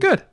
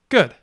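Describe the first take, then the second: First: The pitch falls from high to mid. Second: The pitch falls from mid to low. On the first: "five three" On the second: "three one"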